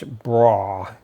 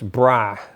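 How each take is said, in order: First: The vowel rhymes with 'raw'. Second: The vowel rhymes with 'ma'. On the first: This is how southern Indiana says it. "Down here it's bra, kind of rhymes with raw" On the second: This is how upstate New York says it. "Upstate New York it's bra, rhymes with ma"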